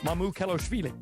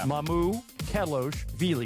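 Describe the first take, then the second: First: The name is said quickly as one smooth unit. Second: The name is broken into three separate parts. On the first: "then you just speed it up" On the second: "think of it in those three parts"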